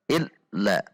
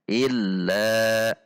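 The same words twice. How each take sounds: First: The doubled consonant is clipped abruptly. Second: The doubled consonant is of moderate length. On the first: The speaker calls it wrong. "dihentak illa ... juga tidak boleh" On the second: The speaker calls it right. "dibaca di antara keduanya atau bainiyah"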